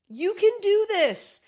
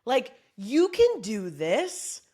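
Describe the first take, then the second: First: You can do this, high and loud; pep talk cheer. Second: Said in the usual way. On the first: Shown as a demonstration. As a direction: cheer them on, rising up on can. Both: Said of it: "the pep talk part is like".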